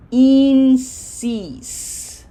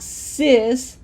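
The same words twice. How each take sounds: First: Insis as a long, held "een-sees"; right long I. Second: Sis with a short English "ih"; lax, short vowel in sis, as the mistake to avoid; wrong short I. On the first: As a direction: smile on both vowels of insis, stretched "ee". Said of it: "Not in, not sis, but". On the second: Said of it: "not sis". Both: Shown as a demonstration.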